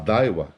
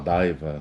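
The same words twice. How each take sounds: First: It is pronounced the foreign, non-Brazilian way. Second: It is pronounced the usual Brazilian Portuguese way.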